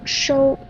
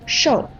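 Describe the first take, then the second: First: The syllable is said with a high level tone. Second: The syllable is said with a falling tone. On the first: It means to receive actively. The speaker calls it right. "一声收" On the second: It means to receive passively. The speaker calls it wrong. "你刚才说的是四声受"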